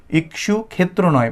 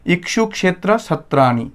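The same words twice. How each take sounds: First: ক্ষেত্র said the Bengali way, as khetro with a plain kh; the Bengali khetro, not the Sanskrit kshetra; Bengali pronunciation. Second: ক্ষেত্র said kshetra with a clear ksh cluster, slowly; careful Sanskrit kshetra, every sound crisp; Sanskrit pronunciation. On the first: Teacher demonstrating the Bengali way to avoid, ক্ষেত্র as khetro. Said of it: "বাংলায় আমরা ক্ষেত্র বলি". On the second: Teacher showing students the correct Sanskrit ক্ষেত্র. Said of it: "সংস্কৃত উচ্চারণে হবে ক্ষেত্র". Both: Shown as a demonstration.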